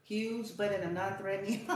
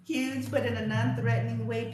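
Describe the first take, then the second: First: Said in the usual way. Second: Louder, amused second take of the phrase; amused repeat. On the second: Shown as a demonstration. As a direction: say it again, tickled and louder.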